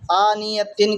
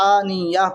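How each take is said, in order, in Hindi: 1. शब्द पूरी tin ध्वनि से खत्म होता है। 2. शब्द नरम h ध्वनि से खत्म होता है। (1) "आनियतिन की जगह" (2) "रुकने के बाद में हाय साकिना करके पढ़ेंगे"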